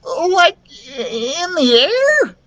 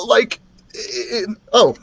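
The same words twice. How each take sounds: First: Very high, drawn-out squeak; frightened little character voice; nervous. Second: Higher-pitched, halting character voice; mistaken dragon voice. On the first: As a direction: ask it tremulously, near tears. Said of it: "Lucas asked nervously". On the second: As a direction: falter nervously, then break off. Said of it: "Lucas, not Dribble". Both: A narrator's reading.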